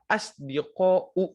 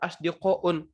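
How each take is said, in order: First: The word ends on a vowel without n. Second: The word ends with an added n sound. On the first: The speaker calls it right. "Yang benar adalah asdiqa'u" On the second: The speaker calls it wrong. "kalian nggak boleh bilang asdiqa'un"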